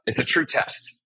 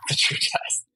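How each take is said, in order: First: Said in the usual way. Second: "It's a true test" whispered through a laugh; amused whispered repeat of "It's a true test". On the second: Shown as a demonstration. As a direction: breathe the line out with a chuckle, voiceless.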